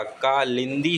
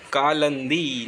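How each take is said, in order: First: कालिंदी as "kaa-lin-dee"; slow कालिंदी with "lin"; correct i vowel. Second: कालंदी as "kaa-lan-dee"; slow कालंदी with "lan"; wrong middle vowel. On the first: Teacher correcting it, कालिंदी slowly with "lin". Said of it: "कालिंदी होता है". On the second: Teacher showing the error, कालंदी slowly with "lan". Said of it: "कालंदी नहीं होता". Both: Shown as a demonstration.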